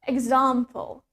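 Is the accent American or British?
British. It is said in a British accent. "In British English, we pronounce it as example"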